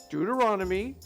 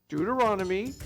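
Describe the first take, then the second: Both takes have the same delivery.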